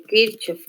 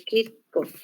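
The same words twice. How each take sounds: First: Kirchhoff with a Spanish CH, "KIR-chof"; pronunciación españolizada. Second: Kirchhoff with a hard K sound in the middle, "KIR-kof"; pronunciación original. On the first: (Kirchhoff pronunciado «Kírchof», con che española) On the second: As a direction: say Kirchhoff as "Kirkof", ch as K. (Kirchhoff pronunciado «Kírkof», con la ch como k) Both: Shown as a demonstration. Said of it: "como lo quieran decir".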